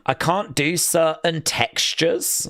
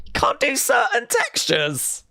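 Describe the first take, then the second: First: Said in the usual way. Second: Incredulous, teasing whisper, pitched up; mock whisper. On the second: Host whispers back a viewer's picky-eater comment, mocking. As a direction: hush it like a scandal, mocking.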